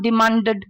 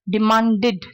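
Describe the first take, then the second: First: The final 'id' syllable is blurred and weak. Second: The final 'id' syllable is clearly pronounced. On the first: The speaker calls it wrong. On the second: The speaker calls it right.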